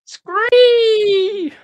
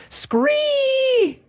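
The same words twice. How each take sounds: First: Loud high shrieking scree; pterodactyl shriek. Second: Piercing high screech; pterodactyl shriek. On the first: Retold or imitated. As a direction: echo the pterodactyl cry, full volume. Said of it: "Absolutely comical". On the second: Acted. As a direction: swoop down with a shrill scree. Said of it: "your best pterodactyl impression".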